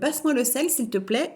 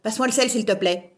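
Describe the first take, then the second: First: It is said in a calm, friendly tone. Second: It is said in an irritated, angry tone.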